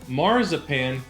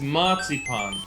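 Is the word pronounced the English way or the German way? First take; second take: English; German. First: The word is pronounced the English way. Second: The word is pronounced the German way. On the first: The speaker calls it wrong. "I bet you've been saying it wrong. In Germany, it's not marzipan" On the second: The speaker calls it right. "In Germany, ... it's marzipan"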